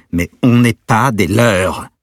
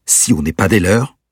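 First: Slow, much louder, higher, every word hammered; very angry. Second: Quick, louder end of a heated rant. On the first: Peter answering the man who kidnapped his girlfriend, slow furious shout. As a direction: spell it out in cold fury. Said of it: "à présent très en colère". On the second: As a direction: fire it off at the end of the tirade. Peter's angry tirade at captor. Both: Acted.

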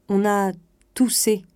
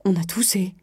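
First: Said in the usual way. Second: Exasperated echo as a question. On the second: A narrator's reading. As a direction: throw it back in disbelief. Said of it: "s'écria, exaspérée".

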